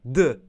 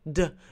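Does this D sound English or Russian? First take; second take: Russian; English. First: A D made against the teeth, Russian style. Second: A D made behind the teeth, English style. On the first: "Russian accent pronounces when you use T and D on your teeth" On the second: "It is sounds of T and D in your English"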